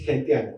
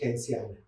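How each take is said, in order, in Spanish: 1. La consonante del medio es un sonido t. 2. La consonante del medio es un sonido s. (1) "Todo el mundo dice gentiana" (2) "En realidad se pronuncia genciana"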